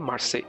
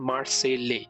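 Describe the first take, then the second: First: The final L sound is dropped. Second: The final L sound is pronounced. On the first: This is the French way of saying it. "French ভাষায় বলে মার্সে" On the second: This is the English way of saying it. "আসল ইংলিশে বলতে গেলে কথাটা হচ্ছে মার্সেলে"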